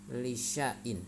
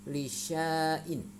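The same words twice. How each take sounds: First: The vowel after 'sy' is kept short. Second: The vowel after 'sy' is drawn out long. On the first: The speaker calls it right. "harus dibaca pendek" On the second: The speaker calls it wrong. "jangan dibaca panjang"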